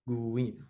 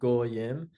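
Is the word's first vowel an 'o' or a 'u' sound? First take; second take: u; o. First: The first vowel is a 'u' sound. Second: The first vowel is an 'o' sound. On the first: This is how the speaker's community says it. "we would pronounce as u, like guim" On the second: This is how many other communities say it. "pronounced like o, like goyim"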